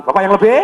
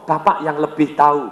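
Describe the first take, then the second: First: "lebih" left hanging on a rising, louder tune; audience prompt. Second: Deferential. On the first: Trainer leaving "lebih" rising for the audience to complete. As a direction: stop at "lebih" and lift it so the crowd finishes. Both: Shown as a demonstration. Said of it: "Anda ngomong".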